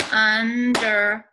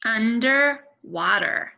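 First: Under-wa-ter, each syllable hit loud and apart; clapped out by syllables. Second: Said in the usual way. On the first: Shown as a demonstration. Teacher clapping out Underwater for the class. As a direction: clap out Underwater beat by beat. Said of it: "Let's clap it out". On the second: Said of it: "First, try to say it on your own".

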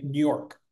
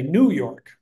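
First: "New York" squeezed together, nearly "N'York"; "New York" run into one word, insider style; native New Yorker pronunciation. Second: "New York" as two separate words, "New" given full weight; "New York" with a clear, stressed "New"; outsider pronunciation. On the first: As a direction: say "New York" as locals do, first word swallowed. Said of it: "if you're from New York". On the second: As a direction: say "New York" carefully, like someone not from there. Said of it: "If you're not from New York". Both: Shown as a demonstration.

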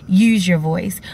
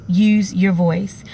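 Both takes have the same delivery.

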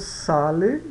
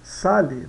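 First: Sale ending in a clean e sound; correct Italian. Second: Sale said as sali, final e turned to i; wrong Brazilian way. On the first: Teacher contrasts the right Italian ending for students, clear. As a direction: say sale with a true e at the end. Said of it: "A gente diz sale e não". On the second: Teacher shows the mistake students make, marked. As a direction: end sale with an i sound like Portuguese. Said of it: "e não". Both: Shown as a demonstration.

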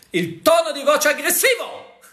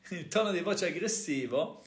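First: High, loud mock-aggressive delivery with a laugh; a laughing demo of an aggressive voice. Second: Said in the usual way. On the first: Shown as a demonstration. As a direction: bark it out as a playful show of aggression.

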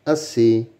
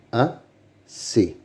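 First: Said in the usual way. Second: "Assez" as a, pause, ssez; syllable by syllable. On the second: Shown as a demonstration. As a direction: sound out "Assez" in two separate beats. (« Assez » découpé syllabe par syllabe) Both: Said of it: "Lis les mots".

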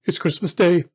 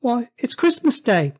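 First: To himself. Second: High, amazed answer; boy's voice. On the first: Scrooge speaking to himself, marvelling. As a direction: realise it with delight. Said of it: "said Scrooge to himself". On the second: Boy telling Scrooge the day, high-voiced. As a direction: state the obvious as a young lad. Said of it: "replied the boy". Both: Acted.

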